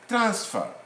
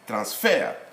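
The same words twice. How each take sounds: First: The stress is on the first syllable. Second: The stress is on the last syllable. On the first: It is used as a noun. "As a noun" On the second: It is used as a verb. "as a verb, we say we stress on the last syllable"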